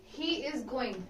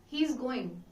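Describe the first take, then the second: First: He and is are said as two separate words. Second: He and is merge into one syllable. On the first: "instead of saying he is going" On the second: "you can say he's going"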